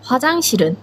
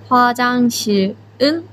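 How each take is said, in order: First: 화장실은 run together, final ㄹ carried into 은; 連音化した発音. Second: 화장실은 split into the written parts 화장실 and 은; 書く通りに区切る. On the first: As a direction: link 화장실은 into one word, "hwa-jang-si-reun". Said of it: "実際の発音は". (화장실은を連音化して「ファジャンシルン」とつなげて発音) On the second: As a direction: say 화장실, then 은 separately, without linking. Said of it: "書くときはしっかり単語の화장실". (화장실은を「화장실」と「은」に区切って読む) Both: Shown as a demonstration.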